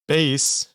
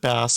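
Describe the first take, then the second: First: It is said like the musical instrument. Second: It is said like the fish word. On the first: The speaker calls it right. "That that's how you pronounce that" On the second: The speaker calls it wrong. "I almost said bass like the fish"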